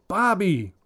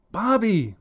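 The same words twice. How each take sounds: First: Loud high call of his name; yelling. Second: High, loud shriek of his name. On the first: Mother yelling for her son from upstairs, high and loud. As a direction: call him sharply from another floor. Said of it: "Sandra yells from upstairs". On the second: Mother shrieking at her son, loud and high. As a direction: let the name shrill out in anger. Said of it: "Sandra shrieks". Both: Acted.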